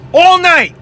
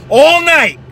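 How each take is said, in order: Both takes have the same delivery.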